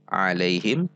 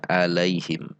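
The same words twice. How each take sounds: First: Alaihim opening on a squeezed throat ain. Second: Alaihim opening on a simple glottal catch; hamzah for ain. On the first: Showing learners the proper letter, throaty ain alaihim. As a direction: start "alaihim" from mid-throat, voiced and tight. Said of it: "Begitu juga di sini". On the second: Showing learners what not to read, hamzah-style alaihim. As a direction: start "alaihim" on an open A without throat squeeze. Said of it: "berarti mengubah ain dengan". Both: Shown as a demonstration.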